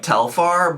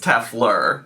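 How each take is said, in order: First: The name sounds like the bag brand Telfar. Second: The name sounds different from the bag brand. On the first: The speaker calls it wrong. "I always pronounce it like the bag, like Telfar" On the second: The speaker calls it right. "but I think it's Teflur"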